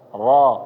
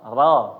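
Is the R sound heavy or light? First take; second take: heavy; light. First: The R sound is heavy and full. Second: The R sound is light and thin. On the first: The speaker calls it right. "itu dinamakan dengan uh, ro tebal" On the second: The speaker calls it wrong. "ro fathah dibaca tipis ... ini keliru"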